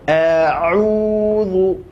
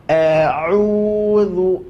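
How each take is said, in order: No difference in how they are said.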